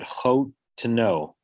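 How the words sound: There is a slight break after the first syllable. The speaker calls it right. "but chotno. Like there's the meteg says there's an eighth pause"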